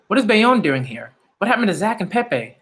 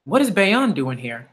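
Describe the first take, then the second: First: Stunned fan reaction; surprised. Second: Said in the usual way. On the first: Real, not acted. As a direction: ask it like you can't believe he's here. Surprised by character's arrival.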